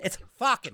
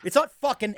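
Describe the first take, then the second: First: "fucking" said the Boston way as "fuckin'"; Boston pronunciation. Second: "fucking" said with a clear standard ending; plain "fucking", not the Boston way; standard pronunciation. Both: Shown as a demonstration. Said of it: "They always gotta say fucking".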